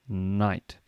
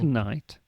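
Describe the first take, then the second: First: The word begins with an N sound. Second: The word begins with a K sound. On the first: The speaker calls it right. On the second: The speaker calls it wrong.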